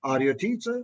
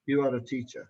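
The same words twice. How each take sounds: First: "teacher" climbing at the end; rising question tone. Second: "you are a teacher" low, dropping on "teacher"; falling statement tone. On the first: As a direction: ask it, lifting "teacher". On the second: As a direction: state it, letting "teacher" sink. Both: Shown as a demonstration. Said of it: "Rising tone".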